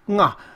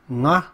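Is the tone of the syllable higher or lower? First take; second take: higher; lower. First: The syllable is said with a higher tone. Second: The syllable is said with a lower tone. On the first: "then the tone gets higher"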